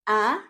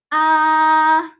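First: The pitch rises like a question. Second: The pitch stays flat and high. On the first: "para ka lang nag-ask ng question ... pataas yung tone natin" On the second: "The first tone is pronounced as flat and high"

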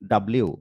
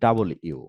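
First: It is said as a clipped 'dablew' blend. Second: It is said as 'double' plus a separate 'you'. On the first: The speaker calls it wrong. "এটা কিন্তু আমরা পড়তাম কি? ডাব্লিউ আর হবে না" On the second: The speaker calls it right. "তেমনই ডাবল ইউ"

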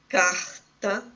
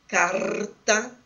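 First: The r is said as in carioca speech. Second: The r is said as in gaúcho speech. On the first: "como no dialeto carioca" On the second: "como em algumas variedades do dialeto, da variedade sociolinguística praticada no Rio Grande do Sul"

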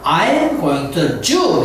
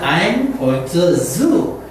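First: The last word starts with a j sound. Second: The last word starts with a buzzing z sound. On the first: The speaker calls it wrong. "해버리면 나는 그 유태인에게 가는 길이야" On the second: The speaker is going to the zoo. The speaker calls it right. "그렇게 발음을 해야지"

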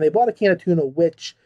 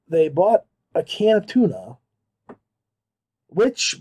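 First: The sentence flows on without a break. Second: The sentence stops with a break mid-phrase. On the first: The speaker calls it right. "rather than saying" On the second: The speaker calls it wrong. "there was a pause"

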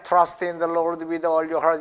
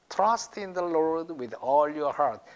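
First: It is read flatly, without marked beats. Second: It is read with strong stresses and rhythm. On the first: The speaker calls it wrong. "그냥 Trust in the Lord with all your heart 이러면 재미가 없어요" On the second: The speaker calls it right. "이 빨간 데에 강세를 넣고"

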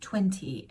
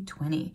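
First: It is said in a British accent. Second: It is said in an American accent. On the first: "in British English, it's 20" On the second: "in American English, which mommy speaks"

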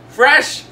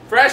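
First: It is said at a slower pace. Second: It is said at a faster pace.

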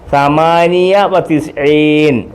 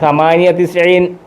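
First: A 'wa' sound joins the two number words. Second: No 'wa' sound joins the two number words. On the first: The speaker calls it wrong. "ഞാൻ എഴുതിയെന്നേ ഉള്ളൂ" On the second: The speaker calls it right. "സമാനിയ തിസ്ഈൻ എന്നേ പറയത്തുള്ളൂ"

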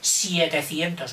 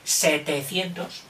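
First: The first syllable is pronounced 'sie'. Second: The first syllable is pronounced 'se'. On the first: The speaker calls it wrong. "No digas 700" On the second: The speaker calls it right. "no, 700"

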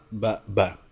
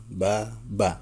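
Both takes have the same delivery.

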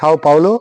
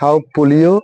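First: The second word sounds like 'Paulo'. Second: The second word sounds like 'Polio'. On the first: The speaker calls it right. "কেউ বলে Sao পাওলো" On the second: The speaker calls it wrong. "কেউ বলে Sao পোলিও"

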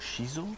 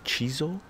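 First: The word begins with an 'sh' sound. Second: The word begins with a 'ch' sound. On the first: The speaker calls it right. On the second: The speaker calls it wrong. "Not chizo"

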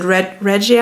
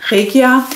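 First: The name is said with an English pronunciation. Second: The name is said with a German pronunciation. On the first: "some of the English speakers pronounce it Regia" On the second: "It's called Regia"

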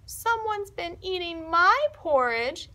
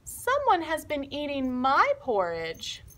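First: It is said in a little voice. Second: It is said in a medium-sized voice. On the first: "in his little voice" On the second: "in her medium-sized voice"

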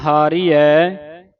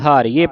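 First: It is said as two words, 'haari hai'. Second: It is merged into one word, 'haariye'. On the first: The speaker calls it right. "ਹਾਰੀ ਹੈ ਐੜੇ ਦਲਾਵਾ" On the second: The speaker calls it wrong. "ਹਾਰੀਏ ਪੜ ਜਾਂਦੇ ਹਾਂ"

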